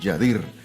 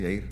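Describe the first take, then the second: First: A consonant sound is heard between the two vowels. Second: The two vowels run together with no consonant between. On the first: Someone else said it this way. The speaker calls it wrong. "me decía Yadir" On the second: This is how the name is really said. The speaker calls it right. "se dice Yair"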